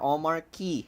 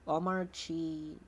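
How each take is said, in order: First: The last syllable starts with a k sound. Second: The last syllable starts with a ch sound. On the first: "I will pronounce it Omar Key just to piss off anyone" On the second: "Omar Chi because it's arch"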